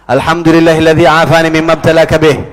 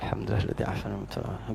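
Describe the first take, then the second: First: It is said loudly, clearly out loud. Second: It is said softly, under the breath. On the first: The sinner should hear it as a rebuke. "Baca yang kencang" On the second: The afflicted person should not hear it and be offended. "kalau musibah dunia bacanya pelan"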